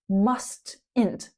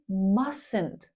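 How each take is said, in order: First: The T in the middle is pronounced. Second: The T in the middle is silent. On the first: The speaker calls it wrong. "not mustn't" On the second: The speaker calls it right. "Notice how that T in the middle is silent. We say mustn't"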